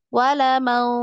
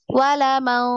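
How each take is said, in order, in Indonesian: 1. Bunyi sengau kabur dan tersamar, hampir tidak terdengar. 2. Bunyi sengau kabur dan tersamar, hampir tidak terdengar.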